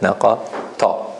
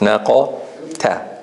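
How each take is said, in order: First: The final 'ta' keeps the heavy, strong quality. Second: The final 'ta' is said light and soft. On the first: The speaker calls it wrong. "This is how you said it" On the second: The speaker calls it right. "So it's"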